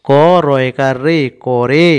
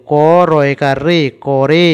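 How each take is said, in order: Both takes have the same delivery.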